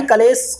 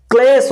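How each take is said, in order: First: कलेश said as ka-lesh with a full a after k; wrong full vowel. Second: क्लेश said as klesh, k joined straight to l; correct cluster. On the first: Teacher showing students the wrong ka-lesh reading, plain voice. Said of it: "कलेश कोई शब्द नहीं होता है". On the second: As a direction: run k into l with no vowel, klesh. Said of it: "क्लेश होता है". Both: Shown as a demonstration.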